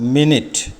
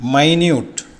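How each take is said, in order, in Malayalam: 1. ഈ വാക്ക് 'min' ശബ്ദത്തിലാണ് തുടങ്ങുന്നത്. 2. ഈ വാക്ക് 'my' ശബ്ദത്തിലാണ് തുടങ്ങുന്നത്. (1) "ഉച്ചാരണം വ്യത്യാസം" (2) "അർത്ഥം ചെറുത്"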